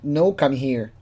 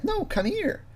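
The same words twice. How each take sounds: First: Said in the usual way. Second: High, soft mock voice; mock James. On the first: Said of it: "Like, the way he acts". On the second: James telling the decoy to come, high soft mock voice. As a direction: imitate him in a small high-pitched voice. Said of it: "And James, like".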